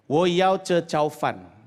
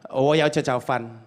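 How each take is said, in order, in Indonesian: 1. Frasa itu diucapkan lambat. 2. Frasa itu diucapkan cepat.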